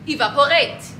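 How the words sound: It is said with an African accent. This is how the speaker says it. "I say evaporate"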